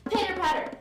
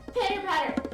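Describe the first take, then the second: No difference in how they are said.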